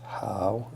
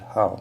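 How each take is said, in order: First: It is said with a tone other than fourth. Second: It is said with the fourth tone. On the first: It means good or okay. "two pronunciations" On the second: It means to love, like or prefer. "the second pronunciation, the fourth tone"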